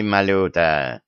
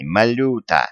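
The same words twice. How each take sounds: First: Dismissive. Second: Sharp indignant outburst at the executioner. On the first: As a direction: wave him off with the name. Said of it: "отмахнулся царь". (небрежно, отмахиваясь) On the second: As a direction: snap the name out in outrage. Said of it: "возмутился царь". (возмущённо, с укором) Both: A narrator's reading.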